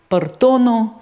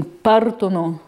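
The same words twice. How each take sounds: First: Partono stressed on the middle syllable, par-TO-no; misplaced stress. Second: Partono stressed on the first syllable, PAR-tono; correct Italian stress. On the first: Lecturer imitating a dyslexic misreading, stress on TO. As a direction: say partono wrongly, punching TO. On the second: Lecturer showing students the correct reading, stress on PAR. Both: Shown as a demonstration. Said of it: "instead of reading partono".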